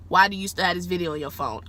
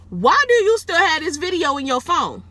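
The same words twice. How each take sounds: First: Said in the usual way. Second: High, loud incredulous question; retold high-pitched yelled question; shouted demand. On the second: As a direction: demand it in outraged disbelief. Confronting the man in retold quote.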